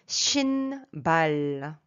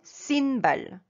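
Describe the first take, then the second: First: The word begins with a 'sh' sound. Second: The word begins with an 's' sound. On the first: The speaker calls it right. "Shinbal, ça c'est juste" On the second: The speaker calls it wrong. "Sinbal n'est pas juste"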